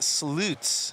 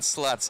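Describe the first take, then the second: First: The vowel is long, as in 'boots'. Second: The vowel is short, as in 'huts'. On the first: The speaker calls it right. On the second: The speaker calls it wrong.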